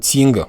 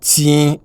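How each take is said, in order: First: The final g is clearly sounded. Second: The final g is not sounded. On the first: The speaker calls it wrong. "et non ting" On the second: The speaker calls it right. "On ne sent pas le G"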